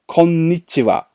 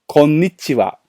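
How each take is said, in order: No difference in how they are said.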